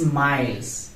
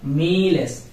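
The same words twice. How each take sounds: First: Miles said the English way, as mails. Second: Miles said the Spanish way as mee-les, in two syllables. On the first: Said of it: "In English". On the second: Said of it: "but in Spanish". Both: Shown as a demonstration.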